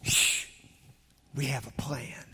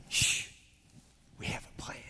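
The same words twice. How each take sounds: First: Breathy hush, barely voiced; whisper. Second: Hushed secret whisper. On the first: Shown as a demonstration. Preacher whispering the book title to the church. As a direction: whisper it like a secret plan. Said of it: "our children's books is entitled". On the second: Retold or imitated. Grandpa reading the book aloud to grandkids, whispering. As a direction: hush them and whisper the plan. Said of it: "whenever I got to read it to grandkids".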